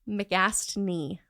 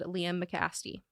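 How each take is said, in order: First: The name is said with an N sound. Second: The name is said without an N sound. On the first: The speaker calls it right. "There's an N in there" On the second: The speaker calls it wrong. "I said his last name wrong"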